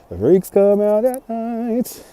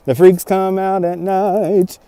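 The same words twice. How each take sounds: First: Slow, soft, spooky; softer, slow eerie delivery; spooky quote. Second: Spooky quote. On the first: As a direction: draw it out slowly like a creepy movie line. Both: Acted. Quoting a chat line dramatically.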